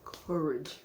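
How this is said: It is said like the Cowardly Lion.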